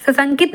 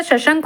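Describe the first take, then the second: First: सशंकित ending in -it; wrong form. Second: Said in the usual way. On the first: Shown as a demonstration. Teacher rejects a misspelling, सशंकित ending in -it. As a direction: add -it to end सशंकित. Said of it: "सशंकित नहीं होता". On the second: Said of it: "सशंक होता है".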